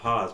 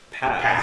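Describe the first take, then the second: First: The vowel is long, as in 'pause'. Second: The vowel is short, as in 'pass'. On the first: The speaker calls it wrong. "is not pause" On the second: The speaker calls it right. "but pass"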